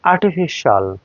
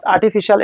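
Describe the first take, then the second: First: আর্টিফিশিয়াল drawn to one falling shol; correct shol ending. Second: আর্টিফিশিয়াল ending in shi-al; spelled-out shi-al. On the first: English teacher gives correct pronunciation, shol ending. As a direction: merge the end of আর্টিফিশিয়াল into shol. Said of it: "এটার correct". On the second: English teacher shows what to avoid, shi-al ending. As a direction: keep the i in the end of আর্টিফিশিয়াল. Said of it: "not আর্টিফিশিয়াল". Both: Shown as a demonstration.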